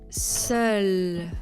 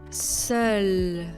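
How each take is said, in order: No difference in how they are said.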